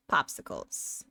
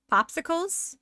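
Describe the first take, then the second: First: POPSICLES pitched low with a falling end; flat statement. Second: POPSICLES pitched high with a rising, questioning end. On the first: Streamer repeating a random word to chat, low statement. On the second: Streamer tossing a random word at chat, questioning. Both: Shown as a demonstration.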